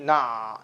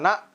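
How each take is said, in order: First: The voice flows on slightly after the syllable. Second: The sound stops short without flowing on. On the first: The speaker calls it right. "suara mengalir sedikit" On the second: The speaker calls it wrong. "tidak iyyaka na"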